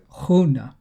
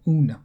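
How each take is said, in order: First: It begins with a rough sound in the throat. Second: It begins with a plain vowel, no throat sound. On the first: "there is like a phlegm. Like hoon. Like in the throat" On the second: "a lot of the British commentators have just taken to saying oon, like O-O-N"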